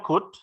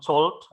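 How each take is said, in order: First: The word is said with no L sound. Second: The word is said with an L sound. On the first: The speaker calls it right. "Ini jadi bacanya could" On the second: The speaker calls it wrong. "jadi bukan told. Jadi huruf O sama L-nya tidak dibaca"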